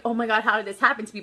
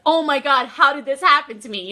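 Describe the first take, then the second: First: Quick, understated dismay; not happily shocked. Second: Loud, delighted disbelief; happy shock. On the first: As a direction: rush it out like mild, unhappy shock. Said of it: "not like". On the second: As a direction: burst out as if thrilled and stunned. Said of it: "happy shocked". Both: Shown as a demonstration.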